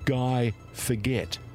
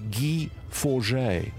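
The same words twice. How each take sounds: First: The name is said like the English word forget. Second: The name is given its French pronunciation. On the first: This is how broadcasters said the name. The speaker calls it wrong. "announced on Australian television as" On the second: This is the name's real pronunciation. The speaker calls it right. "how difficult or how easy is it to say"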